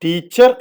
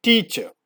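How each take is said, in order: First: ടീച്ചർ said as teacher with a full r; ടീച്ചർ with the r sounded at the end; wrong pronunciation. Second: ടീച്ചർ said as itcha, no final r; right pronunciation. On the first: (ടീച്ചർ തെറ്റായ ഉച്ചാരണം) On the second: (ടീച്ചർ ശരിയായ ഉച്ചാരണം) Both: Shown as a demonstration. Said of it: "ടീച്ചർ എന്നല്ല".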